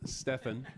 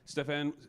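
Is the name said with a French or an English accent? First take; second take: English; French. First: The name is said with an English accent. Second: The name is said with a French accent. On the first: The speaker calls it right. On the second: The speaker calls it wrong.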